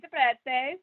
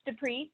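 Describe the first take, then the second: First: The name is said with an Italian pronunciation. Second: The name is said with an English pronunciation. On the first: "if we were in Italy, it would be" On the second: "so close"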